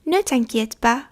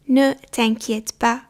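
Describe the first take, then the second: First: Said in the usual way. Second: Ne t'inquiète pas said slowly, each syllable apart; slow, careful repeat. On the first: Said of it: "teacher models the phrase". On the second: Shown as a demonstration. Teacher to learners, slow model repeat. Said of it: "teacher repeats slowly for learners".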